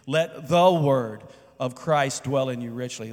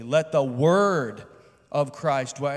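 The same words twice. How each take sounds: First: "the" leaned on hard and drawn out; stress on "the". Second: "word" stretched long and loud; stress on "word". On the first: Pastor showing how to emphasize each word of a verse, stress on "the". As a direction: punch "the", then read the rest evenly. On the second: Pastor showing how to emphasize each word of a verse, stress on "word". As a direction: hit "word" hard and hold it slowly. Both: Shown as a demonstration. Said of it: "emphasize each word in the verse one at a time".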